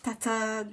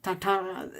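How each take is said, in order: First: "tata" said higher with a nasal French vowel; corrected Tintin. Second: "Tata" as a flat, wrong try; mock wrong Tintin. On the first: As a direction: fix "tata" toward the nasal French sound. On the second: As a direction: say "Tata" the clumsy way. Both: Shown as a demonstration. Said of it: "no, not".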